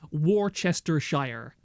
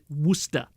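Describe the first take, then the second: First: The 'shire' ending is pronounced aloud. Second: The 'shire' ending is left silent. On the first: The speaker calls it wrong. "like the plebeians say" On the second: The speaker calls it right. "It is Worcester"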